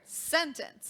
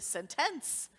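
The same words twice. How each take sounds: First: The stress is on the first syllable. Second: The stress is on the second syllable. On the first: The speaker calls it right. "that mark is on the um, syllable sen of sentence ... that's how we say the word sentence" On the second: The speaker calls it wrong. "That's not how we pronounce that word"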